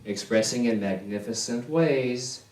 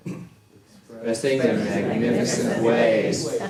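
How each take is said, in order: First: Said in the usual way. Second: Slow, stretched Expressing in magnificent ways, laughing. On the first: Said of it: "Notice the shift in the expression". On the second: Shown as a demonstration. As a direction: let the words stretch out slowly with a laugh. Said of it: "focus on the different words".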